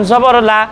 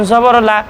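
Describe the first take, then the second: Both takes have the same delivery.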